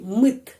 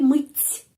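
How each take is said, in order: First: The final t sound is hard. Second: The final t sound is soft. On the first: "Kalau tidak ada di sini tanda pelemah" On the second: "T sudah menjadi lemas, dilemaskan oleh tanda pelemah"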